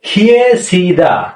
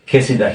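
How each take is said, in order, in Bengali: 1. প্রথম সিলেবলে y-র উচ্চারণ আছে: kye। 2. প্রথম সিলেবলে y-র উচ্চারণ নেই: ke। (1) "উচ্চারণ কি হওয়া উচিত ছিল" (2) "তাহলে এখানে কি উচ্চারণ হবে"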